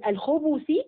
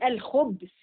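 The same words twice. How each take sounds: First: The b is followed by a short u vowel. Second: The b has no vowel after it. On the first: It is the plural meaning male wicked beings. "بضم الباء" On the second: It is another accepted reading of the word. "وبإسكانها"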